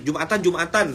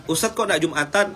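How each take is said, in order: First: Mildly cross-sounding intonation; as if angry. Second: "Jumatan" rising at the end as a question; questioning tune. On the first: Preacher showing how intonation changes the meaning, mock-angry. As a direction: say it like a light telling-off. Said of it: "itu kan kayak marah-marah gitu". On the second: Preacher showing the asking intonation, "Jumatan" lifted as a question. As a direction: ask it plainly, lifting the pitch on "Jumatan". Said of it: "Nah, itu nanya". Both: Shown as a demonstration.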